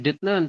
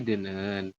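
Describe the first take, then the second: First: A t sound is heard before the n. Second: The t becomes n, giving a double n.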